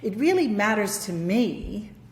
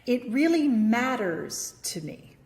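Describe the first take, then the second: First: The word me carries the stress. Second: The word matters carries the stress. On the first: It matters to this person, not someone else. "I'm going to put a stress on me" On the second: It is important, not trivial. "Notice how I'm stressing the word matters"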